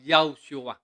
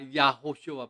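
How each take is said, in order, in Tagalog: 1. Mabilis binibigkas ang pangalan at pinaikli ang mga pantig. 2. Bawat pantig ay binibigkas nang buo at may mahahabang patinig. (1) "'pag binanggit na mabilis po ay" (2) "Parang double O na Yahushua"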